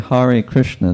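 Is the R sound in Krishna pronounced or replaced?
pronounced. It is said with a clear R sound. This is the usual way to say it. "they don't say Hare Krishna"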